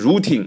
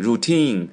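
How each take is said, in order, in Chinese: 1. 重音在第一个音节。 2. 重音在第二个音节。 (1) "注意发音不是routine 啊" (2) "是重音在后面"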